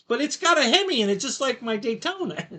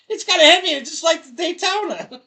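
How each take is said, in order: First: Said in the usual way. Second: Higher, louder, hammed-up repeat of the Hemi line; mock repeat. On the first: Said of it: "And I'm like". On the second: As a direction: replay the punchline laughing.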